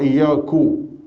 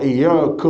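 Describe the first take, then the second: First: The word ends with a 'u' vowel. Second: The word ends with an 'a' vowel. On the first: The speaker calls it wrong. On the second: The speaker calls it right.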